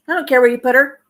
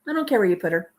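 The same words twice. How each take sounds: First: Indignant mock quote. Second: Said in the usual way. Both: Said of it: "How awful is that".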